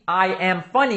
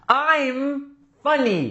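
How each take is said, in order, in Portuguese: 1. I e am são ditos como duas palavras inteiras. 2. I e am são unidos em uma só sílaba. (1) "Em vez de eles falar I am funny" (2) "vão pegar esse I am e vão contrair"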